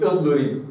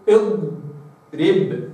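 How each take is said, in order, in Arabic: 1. يُفلَت صوت ḍ مبكرًا جدًا. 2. يُمَدّ صوت ḍ ويُحافَظ عليه ثابتًا. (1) "مش اضرب" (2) "قل اضرب"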